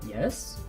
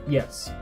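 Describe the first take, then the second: First: It is said as a doubtful, questioning answer. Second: It is said as a settled, agreeing answer. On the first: What do you mean? Explain yourself. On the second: I agree with you. "a way to agree"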